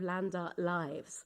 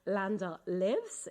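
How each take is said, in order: First: 'Lives' has a long vowel, rhyming with 'hives'. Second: 'Lives' has a short vowel, rhyming with 'gives'. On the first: It names the lives of land art. The speaker calls it wrong. "instead of" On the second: Art is alive and breathes with us. The speaker calls it right. "I always insist on saying"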